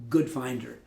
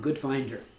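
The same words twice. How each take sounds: First: The stress falls on the word good. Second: The stress falls on the word finder. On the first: Someone who looks for the good in things. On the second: Someone who is skilled at finding things.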